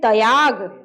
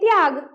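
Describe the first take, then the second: First: A short a vowel follows the t. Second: The t runs straight into y, no vowel. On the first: The t is a full letter. "लगे त के बाद क्या आ रहा है? अ आ रहा है।" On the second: The t is a half letter. "झट से त के बाद झट से अगला वर्ण हमको बोलना पड़ता है"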